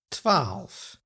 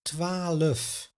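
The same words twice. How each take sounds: First: No vowel is heard between the L and F. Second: A schwa vowel is inserted between the L and F. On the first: "Listen to this word" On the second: "the schwa sound between the L and the F"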